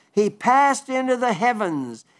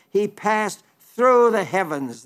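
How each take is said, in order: First: Said in the usual way. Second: Pause, then lean on "through", slowly; "through" stressed as the corrected word, drawn out. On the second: Shown as a demonstration. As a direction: set "through" apart with deliberate weight. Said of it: "It should be translated".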